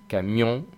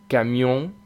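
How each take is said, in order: The two takes are said the same way.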